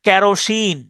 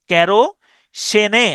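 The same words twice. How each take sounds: First: Said in the usual way. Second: Drawn-out "কেরোসেনে", ke-ro-se-ne; final E sounded. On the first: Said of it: "কিছু শব্দ আছে যেমন". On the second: Shown as a demonstration. Teacher shows a spelling aid, slow "কেরোসেনে" with last E sounded. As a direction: slowly end "কেরোসেনে" on a rising ne. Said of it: "আমি উচ-, উচ্চারণ করতে পারি এইভাবে".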